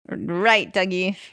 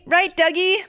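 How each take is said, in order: First: It is said flatly, with little energy. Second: It is said with more enthusiasm and energy.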